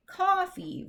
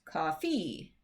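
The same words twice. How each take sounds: First: "coffee" with the first syllable punched high; stress on first syllable. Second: "coffee" wrongly stressed as cof-FEE; stress on second syllable. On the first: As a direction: say "coffee" as COF-fee, stress up front. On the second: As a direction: shift the weight onto the end of "coffee". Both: Shown as a demonstration. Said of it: "which one of those is the correct pronunciation".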